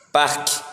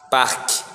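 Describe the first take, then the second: Both takes have the same delivery.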